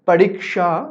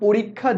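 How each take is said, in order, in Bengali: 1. যুক্তবর্ণটির উচ্চারণ 'ksh' এর মতো। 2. যুক্তবর্ণটির উচ্চারণ দ্বিত্ব 'kkh' এর মতো। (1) "একজন হিন্দি ভাষার মানুষ ... তিনি বলবেন" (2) "আমরা বলি"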